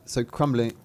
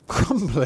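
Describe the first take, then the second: First: Said in the usual way. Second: Laughing at own slip. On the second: Real, not acted. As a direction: repeat it through a laugh. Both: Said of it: "Thumbling. That's a different character".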